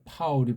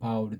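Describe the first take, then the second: First: It begins with a strongly aspirated p sound. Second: It begins with a softer, unaspirated b sound. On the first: This follows the original sound of the name. The speaker calls it right. "피읍도 안 되니까" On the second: This is the simplified form used in Korea. The speaker calls it wrong. "비읍으로 파울이 바울이 되고"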